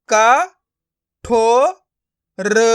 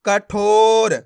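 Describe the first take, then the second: First: क, ठो, र each sounded alone; syllable by syllable. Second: कठोर joined, with a long ठो; blended word. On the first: Teacher breaking a word up for learners, syllable by syllable. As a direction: pause between क, ठो and र. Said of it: "एक एक अक्षर का उच्चारण करके". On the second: Teacher showing learners the joined result, blended word. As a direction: run क into a stretched ठोर. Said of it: "तो मिलके बन जाएगा". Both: Shown as a demonstration.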